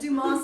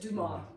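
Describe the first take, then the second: First: The final s is sounded. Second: The final s is silent. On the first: This is the English way of saying it. "we would pronounce it Dumas in English" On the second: This is the French way of saying it. "We don't say the S in French"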